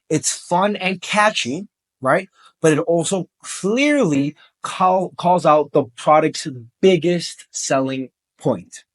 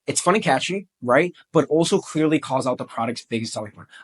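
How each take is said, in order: First: It is said a little more slowly. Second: It is said at normal speed.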